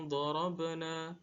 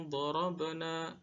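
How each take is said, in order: No difference in how they are said.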